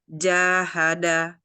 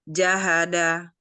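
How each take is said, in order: First: The first vowel is held for two beats. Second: The first vowel is held for one short beat. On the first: "Kalau diikuti dengan huruf mat" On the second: "Kalau dia tidak diikuti mat, dia jadi satu harokat"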